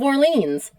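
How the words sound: The name is said with an American pronunciation. The speaker calls it wrong. "if I was talking in my American accent, it's the Duke of Orleans"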